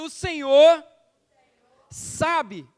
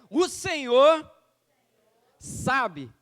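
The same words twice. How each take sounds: First: It is said even more loudly. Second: It is said loudly.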